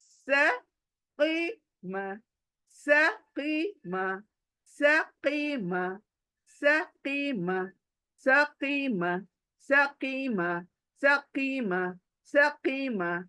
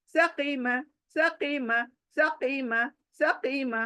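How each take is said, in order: First: Slow drill. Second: Fast drill. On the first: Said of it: "फिर आगे जाकर practice fast करो". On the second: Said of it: "fast हो गई अब". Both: Shown as a demonstration.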